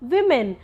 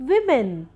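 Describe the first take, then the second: First: The first vowel sounds like 'i'. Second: The first vowel sounds like 'i'.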